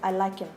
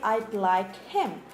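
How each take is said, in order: First: The h in him is dropped and linked. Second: The h in him is fully pronounced. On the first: The speaker calls it right. "you reduce the words" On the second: The speaker calls it wrong. "You don't say"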